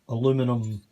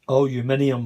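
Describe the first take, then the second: First: It is said the North American way, four syllables. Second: It is said the British way, five syllables.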